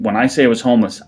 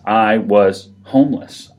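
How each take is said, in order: First: Said in the usual way. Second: "I was homeless" said slowly, each word weighted; slow emphatic repeat. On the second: Real, not acted. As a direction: lean hard on "I was homeless", drawn out.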